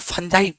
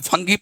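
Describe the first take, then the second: First: It has an uh vowel and ends jai. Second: It has an uh vowel and ends gee. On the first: This is how we say it. "अपन फंजाई पड़ता है" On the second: Some people say it this way. "कोई फंगी पड़ता है"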